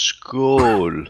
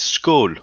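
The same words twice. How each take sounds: First: The word is said slowly and drawn out. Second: The word is said at a normal speed. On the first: "if I had to say it slow" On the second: "it's skull"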